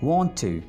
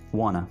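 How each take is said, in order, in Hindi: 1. दो अलग शब्द, हर एक पूरी तरह बोला जाता है। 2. शब्द आपस में मिलकर एक छोटा, घिसा हुआ शब्द बन जाते हैं। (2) "Want to को अंग्रेज कैसे बोलेगा? wanna"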